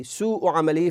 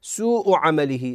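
First: Said in the usual way. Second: سوء with the uu held long before the hamza; slow demo stretch; long madd on waw. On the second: Shown as a demonstration. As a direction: draw out the vowel of سوء. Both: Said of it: "أما حينما نقول سوء".

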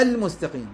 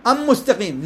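First: "المستقيم" as al-mustaqim; audible l before m in "المستقيم"; lam pronounced clearly. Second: "أم مستقيم" as am-mustaqim; higher, long m and no l in "أم مستقيم"; l swallowed into m in "أم مستقيم"; lam wrongly merged. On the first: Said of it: "لا،". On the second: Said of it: "لا، المستقيم". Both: Shown as a demonstration.

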